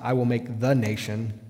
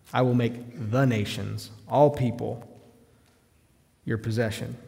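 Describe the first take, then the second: First: Said in the usual way. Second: "nations" leaned on, slowed, the plural ending clear; slow down and land on "nations" with its plural ending; stress on plural nations. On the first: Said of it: "It's not". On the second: Shown as a demonstration. Preacher correcting the misreading, stressing the plural. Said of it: "Notice the plurality there".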